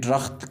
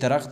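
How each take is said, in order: First: The word begins with a retroflex d sound. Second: The word begins with a dental d sound. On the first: "झालवानी लहजे में ड्रख्त कहते हैं" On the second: "सरावानी लहजे में दरख्त ही कहते हैं"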